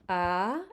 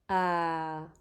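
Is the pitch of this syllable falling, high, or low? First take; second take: high; low. First: The pitch starts mid and rises high. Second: The pitch is low, like a sigh. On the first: "make sure your voice has a very high pitch" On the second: "the next tone is the low tone"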